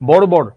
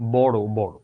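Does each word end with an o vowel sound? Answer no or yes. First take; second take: no; yes. First: Each word ends without an o vowel. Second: Each word ends with an o vowel. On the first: The speaker calls it wrong. "তুমি তো এটা বলবা না" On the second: The speaker calls it right. "তুমি বলবা বড় বড়"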